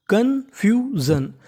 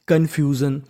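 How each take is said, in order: First: confusion drawn out slowly, pitched higher; slow model word. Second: Said in the usual way. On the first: Shown as a demonstration. Teacher modelling the word for students, slow and high. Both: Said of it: "तो meaning बन गई".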